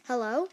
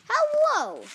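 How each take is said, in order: First: Said in the usual way. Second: High, loud, drawn-out hello; calling out. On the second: Acted. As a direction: holler a greeting, pitched right up. Piggy calls out while flying.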